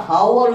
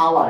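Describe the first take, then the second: First: A full H at the start of হাওয়ার; overdone mispronunciation. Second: Said in the usual way. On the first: Shown as a demonstration. Teacher showing why H is silent, mispronouncing হাওয়ার with audible H. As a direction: say হাওয়ার with the H sounded. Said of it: "তাহলে এটা উচ্চারণটা একটু বেশি দেখাচ্ছে না". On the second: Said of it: "এটার উচ্চারণ হচ্ছে আওয়ার".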